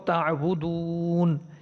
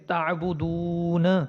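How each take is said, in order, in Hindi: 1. आख़िरी n बिना झटके के, सादा ख़त्म होता है। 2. आख़िरी n गूँजते हुए झटके के साथ ख़त्म होता है। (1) "इसको ताबुदून ऐसे ही पढ़ेंगे" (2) "ऐसे नहीं पढ़ेंगे कि ताबुदून, ऐसे बिल्कुल नहीं कहेंगे हम"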